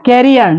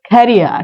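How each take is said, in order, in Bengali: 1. প্রথম k সাধারণ, কোনো ফুঁ ছাড়া। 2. প্রথম k তে বাতাসের জোরালো ফুঁ আছে। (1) "ক্যারিয়ার না" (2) "ক্ষয়ের মতো উচ্চারণটা"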